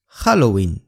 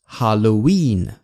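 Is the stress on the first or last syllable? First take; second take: first; last. First: The stress is on the first syllable. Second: The stress is on the last syllable. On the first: This is the Spanish pronunciation. "西班牙语的重音在ha" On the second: This is the English pronunciation. "英语的重音在win"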